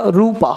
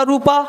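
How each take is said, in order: First: रूपा with a lengthened oo; long vowel. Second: रूपा with a short, quick oo; short vowel. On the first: Teacher quotes rang tera Rupa, रूपा said long. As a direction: hold the oo in रूपा longer. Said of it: "depend ये करता है कि आपने बोला कैसे है". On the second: Teacher explains two spellings, रूपा said short. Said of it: "short बोला रूपा". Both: Shown as a demonstration.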